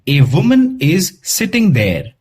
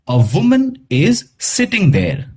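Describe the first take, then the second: First: The article is said as a full 'ay'. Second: The article is said as a short 'uh'. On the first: The speaker calls it wrong. "ऐसे नहीं pronounce करेंगे" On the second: The speaker calls it right. "हम कैसे करेंगे?"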